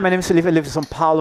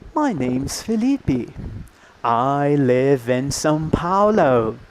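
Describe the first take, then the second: First: It is spoken at a natural, quick pace. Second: It is spoken slowly and over-carefully. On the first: Authentic real-life speech. The speaker calls it right. "if it's natural speed" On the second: Simplified classroom recording. The speaker calls it wrong. "those listenings of people speaking like this"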